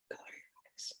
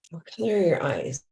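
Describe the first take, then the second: First: Barely audible, voiceless whisper. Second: Said in the usual way. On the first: Shown as a demonstration. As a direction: whisper it as if leaning in very close. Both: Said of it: "And I whisper".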